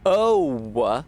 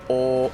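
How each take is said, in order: First: The vowel glides into a rounded sound. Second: The vowel stays one even sound throughout. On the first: The speaker calls it wrong. "don't go like "oh," like don't fully round the sound like we do in American English" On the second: The speaker calls it right. "Just a one even sound all the way across"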